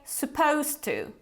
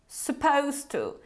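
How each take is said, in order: The two takes are said the same way.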